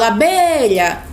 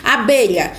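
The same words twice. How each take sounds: First: Abelha with the BE stretched long, as if calling. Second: Said in the usual way. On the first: Shown as a demonstration. Teacher showing how to find the tonic syllable, calling out. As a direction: call out abelha, holding the stressed BE. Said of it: "fala essa palavra como se tivesse chamando". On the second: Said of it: "Por exemplo, a palavra abelha".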